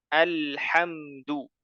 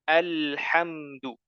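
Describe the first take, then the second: No difference in how they are said.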